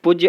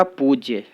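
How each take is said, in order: First: पूज्य with a short u, 'puj-ye'; wrong short vowel. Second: पूज्य with a long oo, 'pooj-ye'; corrected long vowel. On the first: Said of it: "अशुद्ध है". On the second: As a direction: stretch the first vowel of पूज्य. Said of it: "शुद्ध होगा". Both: Shown as a demonstration.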